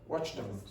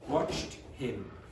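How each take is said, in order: First: The h of him is dropped and linked. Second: The h of him is clearly pronounced. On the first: "when an English native speaker is speaking quickly, that will almost always disappear" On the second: "if you say it just the way uh, it's uh, written, like in the dictionary"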